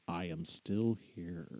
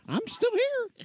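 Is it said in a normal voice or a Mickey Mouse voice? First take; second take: normal voice; Mickey Mouse. First: It is said in a normal voice. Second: It is said in a Mickey Mouse voice.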